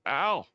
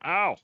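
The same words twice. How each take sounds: First: Raised, loud 'ow' with some anger; higher, louder yelp, mildly angry; angry pained yell. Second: High, loud yelp of pain; sudden high cry of hurt; pained yell. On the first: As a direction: act out an angered creature taking a hit. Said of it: "A lot louder and a lot more angrier". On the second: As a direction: yelp as the creature takes a hit. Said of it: "that's what he says". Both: Acted.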